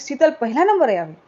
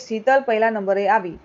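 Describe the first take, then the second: First: It is said as an exclamation. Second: It is said as a plain statement.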